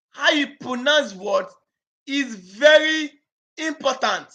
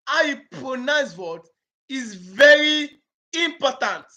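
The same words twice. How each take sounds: The two takes are said the same way.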